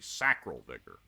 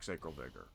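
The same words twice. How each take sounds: First: The first syllable sounds like the start of 'sacrament'. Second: The first syllable differs from the start of 'sacrament'. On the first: The speaker calls it right. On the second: The speaker calls it wrong.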